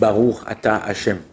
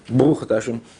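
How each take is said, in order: First: The words are said aloud, clearly and deliberately. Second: The words are rushed and mumbled under the breath. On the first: The speaker means what is said. The speaker calls it right. "Je comprends ce que je dis" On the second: The words are said with little intention. The speaker calls it wrong. "une intention beaucoup plus grande que quand tu fais"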